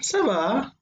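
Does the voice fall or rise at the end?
fall. The pitch falls at the end. It answers that everything is fine. "repeating the same thing but with a different intonation"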